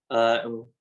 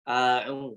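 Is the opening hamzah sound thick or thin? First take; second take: thick; thin. First: The hamzah is said thick and heavy. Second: The hamzah is said thin and light. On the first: The speaker calls it wrong. "kita bacanya dengan a" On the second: The speaker calls it right. "harusnya dibaca a'u"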